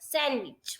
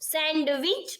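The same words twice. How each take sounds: First: The d sound in the middle is silent. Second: The d sound in the middle is pronounced. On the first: The speaker calls it right. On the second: The speaker calls it wrong.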